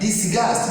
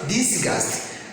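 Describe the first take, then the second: First: The stress is on the second syllable. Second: The stress is on the first syllable. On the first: The speaker calls it right. "This is on gust" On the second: The speaker calls it wrong. "don't pronounce disgust"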